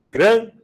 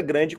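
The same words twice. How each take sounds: First: "grande" split into GRAN, pause, de, first beat loud and high; syllable by syllable. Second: Said in the usual way. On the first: Shown as a demonstration. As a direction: break "grande" in two, punching GRAN. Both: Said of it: "Quantas emissões sonoras?".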